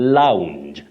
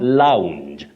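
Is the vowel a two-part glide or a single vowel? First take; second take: glide; glide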